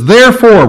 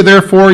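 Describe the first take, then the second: First: Therefore punched high and loud; a loud, high Therefore to open the verse; stress on therefore. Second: Said in the usual way. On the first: Shown as a demonstration. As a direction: hit the word Therefore hard. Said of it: "whenever you see a "therefore," you look what it's there for". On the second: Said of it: "you look what it's there for".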